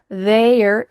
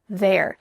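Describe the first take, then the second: First: It has a full 'they' vowel before 'r'. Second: It sounds like 'there', the 'y' sound gone. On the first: "This is the clear pronunciation for this contraction" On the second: "In fast conversations, native speakers are just going to say there"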